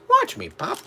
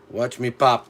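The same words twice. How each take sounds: First: It is said in an old-fashioned put-on voice. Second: It is said in his ordinary speaking voice.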